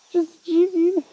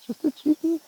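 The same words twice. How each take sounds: First: Higher coaxing voice to the cat. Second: Much higher, singsong pet voice. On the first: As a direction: coax the cat, brighter. Repeating to cat, higher louder. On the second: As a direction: coo it to the scared cat. Repeating to cat, high voice. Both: Real, not acted.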